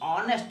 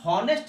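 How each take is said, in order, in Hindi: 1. इस शब्द की शुरुआत स्वर की ध्वनि से होती है। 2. इस शब्द की शुरुआत h की ध्वनि से होती है। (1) "इसको ऑनेस्ट बोलते हैं" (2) "लेकिन इसको हॉनेस्ट नहीं बोलते हैं"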